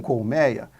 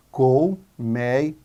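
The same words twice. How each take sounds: First: Said in the usual way. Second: "Colmeia" slow and low, split col, mei, a; separated into syllables. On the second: Shown as a demonstration. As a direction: draw out each syllable of "Colmeia". ("Colmeia" devagar, sílaba por sílaba) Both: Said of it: "Vamos separar em sílabas".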